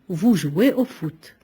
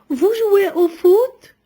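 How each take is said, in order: First: The voice falls at the end. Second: The voice rises at the end. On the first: It is a statement. "on obtient une phrase déclarative" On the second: It is a yes-or-no question. "Notre voix monte"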